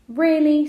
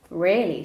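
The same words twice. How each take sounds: First: "Really?" high and loud; incredulous question. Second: "Really" with falling tune, louder; firm answer. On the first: Jack doubting Raoul's advice, high loud "Really?". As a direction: say "Really?" higher and much louder, as a question. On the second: Raoul confirming to Jack, falling "Really". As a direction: answer "Really" firmly, letting it fall. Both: A narrator's reading.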